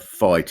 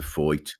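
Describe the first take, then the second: First: The vowel sounds like 'eye'. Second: The vowel sounds like 'oi'.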